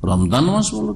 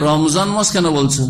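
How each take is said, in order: First: "রমজান" said as ramdan; d sound in "রমজান", as ramdan; Arabic d. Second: "রমজান" with a z in the middle; z sound in "রমজান"; Bangla z. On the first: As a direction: put a d in place of the z in "রমজান", higher. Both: Shown as a demonstration. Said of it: "উচ্চারণ ঠিকভাবে করতে পারছে না".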